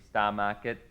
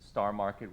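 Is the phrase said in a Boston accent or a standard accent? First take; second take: Boston; standard. First: Said in a Boston accent, r sounds dropped. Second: Said in a standard American accent, r sounds kept.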